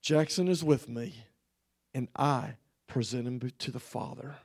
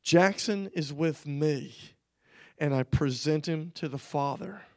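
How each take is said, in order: First: The Lord's firm word, dropping low and soft; quiet authority. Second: The Lord speaking. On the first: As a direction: retell it with authority, sinking lower and quieter. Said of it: "said it with a strength of authority". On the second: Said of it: "he said these words". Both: Retold or imitated.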